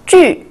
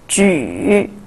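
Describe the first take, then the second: First: The pitch falls sharply from high. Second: The pitch dips low then rises.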